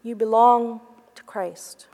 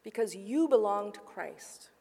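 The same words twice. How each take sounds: First: Whispered like a memory echoing. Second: Said in the usual way. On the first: Retold or imitated. Mary recalls her supervisor's words, a hushed echoing whisper. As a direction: breathe the words as if remembered inside. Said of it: "echoed loudly in her heart". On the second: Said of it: "said in a clear and steady voice".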